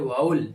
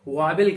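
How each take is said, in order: First: The last syllable has no v sound. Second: A second v sound begins the last syllable. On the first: The speaker calls it right. "सही उच्चारण इसका होता है वाउल" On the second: The speaker calls it wrong. "ज्यादातर लोग वावेल कहते हैं"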